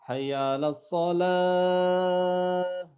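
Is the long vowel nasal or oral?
oral. The long vowels are clear, without nasal sound. The speaker calls it right. "itu harus bebas dari dari khaysum"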